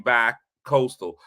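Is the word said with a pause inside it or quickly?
pause. There is a pause after the first syllable. The speaker calls it wrong. "you gotta make sure you don't say a pause"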